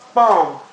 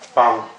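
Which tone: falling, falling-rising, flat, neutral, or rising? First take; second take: falling; neutral. First: The pitch drops sharply from high to low. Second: The pitch is short, light and unstressed. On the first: "the falling tone" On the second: "the neutral tone"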